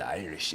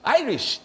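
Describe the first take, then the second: First: Irish accent slipping into Scottish, unlifted; wrong Irish accent. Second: High, loud Irish accent on IRISH; proper Irish accent. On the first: Host shows how it goes wrong, Scottish-sounding Irish accent. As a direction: say IRISH low-key, Scottish-tinged. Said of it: "it'll sound Scottish". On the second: Host shows the right way, high Irish accent. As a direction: punch IRISH up high with an Irish lilt. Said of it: "You gotta be like". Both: Shown as a demonstration.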